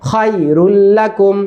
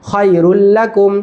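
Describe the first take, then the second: The two takes are said the same way.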